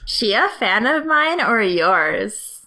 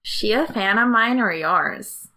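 First: It is read in a less plain tone. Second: It is read in a simpler, plainer tone.

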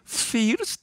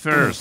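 First: The word is pronounced with a non-native, distorted sound. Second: The word is pronounced with native English sounds. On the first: Someone could not pronounce the word properly. The speaker calls it wrong. "Entonces decía first" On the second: This is how the word should be pronounced. The speaker calls it right. "it's first"

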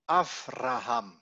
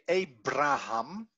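First: The consonant after the first vowel is V. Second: The consonant after the first vowel is B. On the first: The speaker calls it right. "but it should be Avraham" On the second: The speaker calls it wrong. "we say Abraham"

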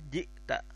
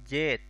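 First: A glottal catch breaks the word into two parts. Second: Said as one smooth syllable without any glottal catch. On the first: This is the formal standard form. "jadi di sini jet itu jit, jita" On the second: This is the colloquial spoken form. "seolah-olah tidak ada jeda, tidak ada huruf hamzah di sini"

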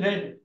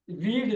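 First: The vowel is short, like in 'red'. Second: The vowel is long, like in 'reed'. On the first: It is the past tense. "This is the past" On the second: It is the present tense. "This is the present"

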